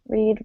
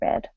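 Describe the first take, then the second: First: The vowel is a long E sound. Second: The vowel is a short E sound. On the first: It is the present tense. "the long E" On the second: It is the past tense. "becomes a short E"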